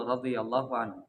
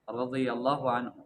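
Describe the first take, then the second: The two takes are said the same way.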